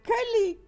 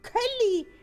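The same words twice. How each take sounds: First: The middle consonant is pronounced as an L. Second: The middle consonant is pronounced as an L.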